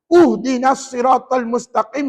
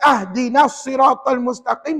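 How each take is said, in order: First: The first word begins with a u vowel. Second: The first word begins with an a vowel.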